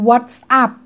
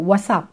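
First: The two words are said separately, not linked. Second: The two words run together as one unit. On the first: The speaker calls it wrong. "เราจะไม่เคยได้ยินฝรั่งพูด" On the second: The speaker calls it right. "เวลาพูดก็คือมันมีเชื่อมเสียงได้นะคะ"

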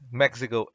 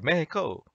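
First: The word is pronounced the English way. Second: The word is pronounced the Spanish way.

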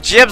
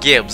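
First: The word starts with a soft J sound. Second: The word starts with a hard G sound. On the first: "Husky calls it Jibs" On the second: "I've always pronounced it Gibbs"

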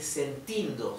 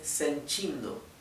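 First: The t before i is a plain t sound. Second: The t before i sounds like ch. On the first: The speaker calls it wrong. "Esto no se dice sentindo" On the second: The speaker calls it right. "se dice sentindo"

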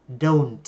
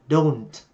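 No difference in how they are said.

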